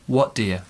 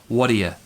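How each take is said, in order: Both takes have the same delivery.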